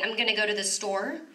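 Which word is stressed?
I'm. The stress falls on the word I'm. "they put the emphasis a lot of times on the subject"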